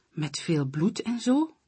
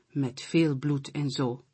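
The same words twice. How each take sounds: First: Zo rises as a question, "Met veel bloed en zo?"; eager asking tune rising on "zo"; curious question. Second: "veel" stressed and the line falls to a flat close on "zo"; confident reply falling at the end; firm answer. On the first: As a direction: ask it, lifting the end on "zo". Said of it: "vraagt muis". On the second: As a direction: settle it, leaning on "veel". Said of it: "antwoordt kat". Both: A narrator's reading.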